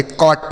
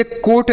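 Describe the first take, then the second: First: कॉट with an open aw vowel; correct open O. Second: कोट with a closed long oh, like coat; wrong closed O. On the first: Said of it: "कॉट पढ़ेंगे". (कॉट में खुला ऑ) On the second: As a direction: say कोट with a rounded oh vowel. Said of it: "इसे कोट नहीं पढ़ेंगे". (कोट में बंद, लंबा ओ) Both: Shown as a demonstration.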